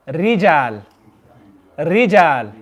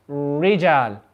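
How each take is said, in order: First: "Rijal" with a faint tongue shiver; slight trill. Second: "Rijal" with the lips curled, English R; wrong English R. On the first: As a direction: trill "Rijal" just a touch. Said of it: "just produce that slight shiver". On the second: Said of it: "I'm reading it wrong". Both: Shown as a demonstration.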